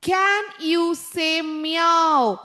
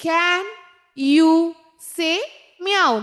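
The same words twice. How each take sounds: First: The whole question drawn out very slowly in one breath; slow read-aloud. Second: "Can", "you", "say", "meow" each set apart by pauses; word by word. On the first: Teacher reading the answer sentence to pupils, very slow and smooth. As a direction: let the question flow out slowly. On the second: Teacher dictating the answer one word at a time, each word on its own. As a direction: pause after every word for pupils to write. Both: Shown as a demonstration.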